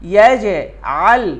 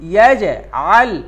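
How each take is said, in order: The two takes are said the same way.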